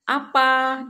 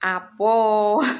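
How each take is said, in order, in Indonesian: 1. Vokal terakhirnya 'a' terbuka. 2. Vokal terakhirnya 'o'.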